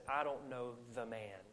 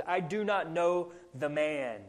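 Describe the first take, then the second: First: Softer, falling denial; understated denial. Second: Slow, firm denial; emphatic oath. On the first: Peter disowns Jesus to save his skin, understated denial. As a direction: let the denial drop quietly. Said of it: "He just says". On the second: Peter denies Jesus to the servant girl, emphatic oath. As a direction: deny it deliberately, like swearing an oath. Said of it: "He denies it with an oath". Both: Retold or imitated.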